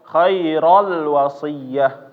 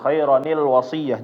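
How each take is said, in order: First: No linking 'ni' sound joins the two words. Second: A linking 'ni' sound joins the two words. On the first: The speaker calls it wrong. "Jangan dibaca ... keliru" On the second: The speaker calls it right. "ronnya hilang, tapi jadi ni"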